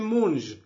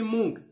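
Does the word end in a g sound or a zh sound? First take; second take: zh; g. First: The word ends in a zh sound. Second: The word ends in a g sound. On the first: "اون هم ژ تلفظ میشه" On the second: "پشتون مشرقی مونگ تلفظ میکنه"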